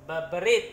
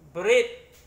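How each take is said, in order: First: The first consonant is repeated, doubled. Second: The first consonant is said once, single. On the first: The speaker calls it wrong. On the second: The speaker calls it right.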